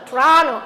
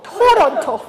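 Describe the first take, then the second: First: The middle is reduced and the syllables run together. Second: Every syllable is pronounced fully and separately. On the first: The speaker calls it right. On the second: The speaker calls it wrong.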